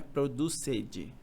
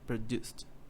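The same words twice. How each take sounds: First: The -ed ending is sounded as an extra syllable. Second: The -ed ending adds no extra syllable. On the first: The speaker calls it wrong. "não é produced" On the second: The speaker calls it right. "Esse som de st"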